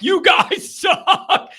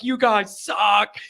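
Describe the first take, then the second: First: High, drawn-out mock scream; imitated screaming fan. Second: Understated mock yell, drawn out; imitated yelling fan. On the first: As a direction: holler like an irate older fan, half laughing. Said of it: "literally screaming into the tunnel". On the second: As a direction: stretch the jeer without really shouting. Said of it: "he's just yelling it".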